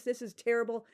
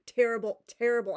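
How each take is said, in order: First: Said in the usual way. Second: "terrible, terrible" said louder each time, in exasperation; loud exasperated "terrible"; louder repeat. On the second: Real, not acted. Ranting about the terrible book.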